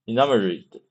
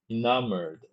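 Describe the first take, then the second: First: "enamored" with an extra syllable, i-NAM-uh-rid; wrong pronunciation. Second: "enamored" in three syllables, i-NAM-erd, softly; quiet "enamored" with the ending run together as "-erd"; corrected pronunciation. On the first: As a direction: say "enamored" ending in a separate "-rid". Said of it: "不对". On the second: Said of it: "这叫en-，enamored". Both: Real, not acted.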